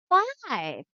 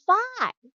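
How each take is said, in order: First: Put-on model word for child. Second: Much higher, louder "Five" with a falling tune; exaggerated model. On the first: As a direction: say Five up high for the child to copy. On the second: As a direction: sing out "Five" high so the child copies. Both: Shown as a demonstration. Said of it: "Okay, say".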